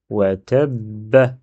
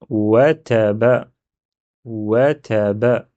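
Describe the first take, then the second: First: "wa tabba" slow, b held double; slow tab-ba with doubled b in "tabba"; doubled consonant. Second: "wa taba" slow with one undoubled b; slow, even syllables, single b in "taba"; single b, as written. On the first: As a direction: hold the b of "tabba" before releasing it. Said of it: "j'ai un dédoublement quelque part et c'est le ba". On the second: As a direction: read "wa taba" slowly without doubling the b. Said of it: "Là, le mot, ça donne". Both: Shown as a demonstration.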